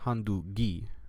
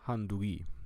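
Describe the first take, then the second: First: The middle g is a hard stop. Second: The middle g is soft and breathy. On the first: The speaker calls it wrong. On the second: The speaker calls it right. "So you basically softened it"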